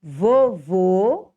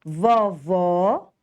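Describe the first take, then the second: First: Vovô with closed, rounded ô; teacher's demo of Vovô, closed ô; closed final vowel. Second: Vovó with open ó; teacher's demo of Vovó, open ó; open final vowel. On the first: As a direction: say Vovô slowly with closed o sounds. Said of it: "você vai usar um acento circunflexo". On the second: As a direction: say Vovó slowly with open o sounds. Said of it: "você vai usar o acento agudo". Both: Shown as a demonstration.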